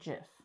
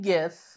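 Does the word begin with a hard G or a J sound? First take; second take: J; hard G. First: The word begins with a J sound. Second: The word begins with a hard G sound. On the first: "the guy that created GIFs pronounces it JIF" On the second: "the word that it comes from is a G sound"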